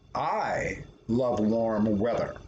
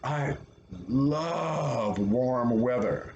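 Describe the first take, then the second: First: The stress is on "I". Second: The stress is on "love".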